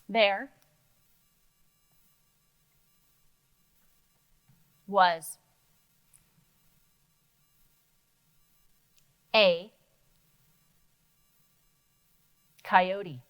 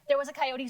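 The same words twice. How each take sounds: First: The words are read very slowly. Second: The words are read very fast. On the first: "I read it too slowly" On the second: "that was so fast"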